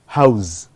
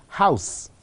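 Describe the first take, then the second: First: "house" ending in buzzed z; final Z sound. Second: "house" ending in voiceless s; final S sound. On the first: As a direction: say "house" as HOWZ, verb form. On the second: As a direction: say "house" as HOWSS, noun form. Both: Shown as a demonstration. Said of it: "change of the final sound from s to z".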